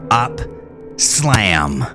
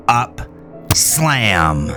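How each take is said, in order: Both takes have the same delivery.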